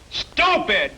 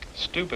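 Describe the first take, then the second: First: It is said loudest, shouted. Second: It is said quietly.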